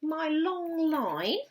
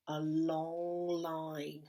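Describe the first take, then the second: First: Long said slowly and louder; drawn-out long. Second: Slow stretched long line; drawn-out long. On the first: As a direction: stretch out the word long, lifting at the end. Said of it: "And then I had". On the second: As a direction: stretch the word long right out. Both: Shown as a demonstration.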